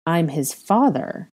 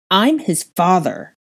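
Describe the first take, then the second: First: Slow, restrained growl. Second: Slow, forceful outburst of anger; raging. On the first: Man asserting he is the boy's father, growled. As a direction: growl it slowly, drawing out the words. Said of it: "he growled". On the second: Father insisting on his right to his son, raging. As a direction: punch each word in slow rage. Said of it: "Draco raged". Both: A narrator's reading.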